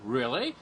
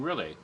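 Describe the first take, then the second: First: The pitch rises at the end. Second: The pitch falls at the end. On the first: It asks a question. "One is, you know, really" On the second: It answers the question. "you can answer that by saying really"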